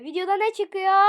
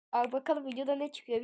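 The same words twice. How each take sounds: First: Loud, high amazed shout; excited exclamation. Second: Said in the usual way. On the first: Real, not acted. Repeats it, amazed by prize.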